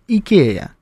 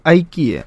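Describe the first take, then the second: First: The word begins with an 'ee' sound. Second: The word begins with an 'eye' sound. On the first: This is how the footballer says it. The speaker calls it right. "Правильно говорит «Икея»" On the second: This is how Americans say it. The speaker calls it wrong. "они это называют «Айкия»"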